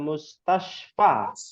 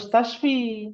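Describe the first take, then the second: First: The word ends with an 'a' vowel. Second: The word ends with an 'i' vowel. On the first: The speaker calls it right. "Dia akan selalu berfathah" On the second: The speaker calls it wrong. "bukan mustashfi"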